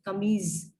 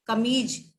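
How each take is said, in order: First: कमीज ending in a z sound; with nukta. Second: कमीज ending in a hard j; without nukta. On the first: Teacher shows students कमीज with the nukta. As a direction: end कमीज on a buzzing z. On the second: Teacher shows students कमीज without the nukta. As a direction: end कमीज on a plain j. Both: Shown as a demonstration. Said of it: "नुक्ता लग जाएगा".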